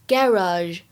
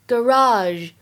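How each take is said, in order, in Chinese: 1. 这是英式口音。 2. 这是美式口音。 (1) "在英式英语当中呢，一般来说读作garage" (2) "美式当中呢，会读成garage"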